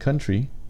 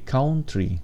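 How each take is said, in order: First: It is said with a standard English accent. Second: It is said with a Filipino accent. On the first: The speaker calls it wrong. "Instead of saying country" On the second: The speaker calls it right. "say country"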